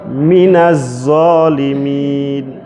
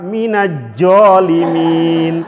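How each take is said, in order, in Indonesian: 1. Huruf itu dilafalkan dengan bunyi z. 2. Huruf itu dilafalkan dengan bunyi j. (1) "Orang Betawi itu paling sulit mengucapkan huruf zal atau zo" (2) "Yang paling parah"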